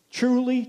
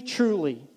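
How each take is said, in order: First: First truly lifted high and pressed; a raised, emphatic "Truly". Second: Said in the usual way. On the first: Acted. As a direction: open with a ringing, high Truly. Opening a scripture quote.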